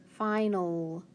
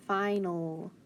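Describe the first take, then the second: No difference in how they are said.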